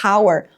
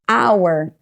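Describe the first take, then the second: First: The word begins with an audible H sound. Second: The word begins directly with a vowel sound. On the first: The speaker calls it wrong. "a gente não pronuncia hour" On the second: The speaker calls it right. "o primeiro som que eu escuto dessa palavra é um som de vogal"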